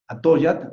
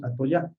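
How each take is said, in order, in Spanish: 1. Se dice con la prosodia y el acento del náhuatl. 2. Se dice con la prosodia y el acento modernos de todos los días. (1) "haciendo la pronunciación o la prosodia o el acento náhuatl" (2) "actualmente decimos Atoyac"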